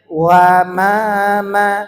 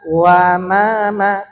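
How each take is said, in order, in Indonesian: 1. Vokal setelah w tipis, seperti a. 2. Vokal setelah w tipis, seperti a.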